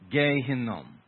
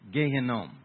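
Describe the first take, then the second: First: The phrase is said at a slower pace. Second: The phrase is said at a faster pace.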